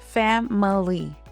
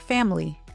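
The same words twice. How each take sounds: First: Every syllable is said fully and clearly. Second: One syllable is reduced or dropped. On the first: "it actually has three beats" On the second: "in natural English, it often sounds like"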